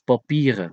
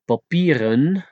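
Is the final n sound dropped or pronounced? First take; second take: dropped; pronounced. First: The word ends in a vowel without n. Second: The word ends with a clear n sound.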